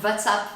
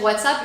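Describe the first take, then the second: First: It starts with a V sound, Turkish-accented. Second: It starts with an English W sound.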